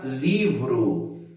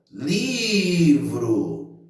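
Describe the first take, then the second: First: Said in the usual way. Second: Livro with a long drawn-out LI; calling out the word. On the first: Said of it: "vou chamar a". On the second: Shown as a demonstration. Teacher calls the word for students, stretching LI in livro. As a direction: call livro, holding the first syllable li. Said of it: "onde eu demorei mais".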